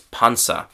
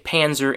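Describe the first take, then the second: First: The word is said with German pronunciation. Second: The word is said with English pronunciation. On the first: "The German word, German pronunciation, sorry, is Panzer" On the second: "in English, we just, as I said, we say Panzer"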